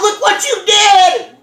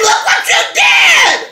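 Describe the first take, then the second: First: A light, half-raised look what you did; barely lifted, mostly just said; mild retold yell. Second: Much higher, slow, shouted look what you did; yelled rebuke. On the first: Scolding the friend who hit the tires, a mild mock yell. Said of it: "And then I yelled". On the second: Retold or imitated. Reliving the moment she yelled at the friend who hit the tires, a slow, high shout. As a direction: yell it out, drawn out and high. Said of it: "I said".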